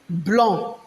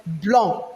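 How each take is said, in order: Both takes have the same delivery.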